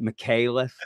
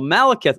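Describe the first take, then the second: First: The name starts with the syllable 'mick'. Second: The name starts with the syllable 'mal'. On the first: "how does Brandon say it?" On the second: "it's Malekith"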